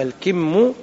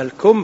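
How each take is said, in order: First: الكم said al-kimm with a clear i on the k; الكم with i after k, the blossom sheath; i vowel, kimm. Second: الكم said al-kumm with u, the sleeve word; الكم with a rounded u on the k; u vowel, kumm. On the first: Teacher giving the correct al-kimm for blossom sheaths. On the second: Teacher contrasting the sleeve word al-kumm. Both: Shown as a demonstration. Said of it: "بكسر الكاف".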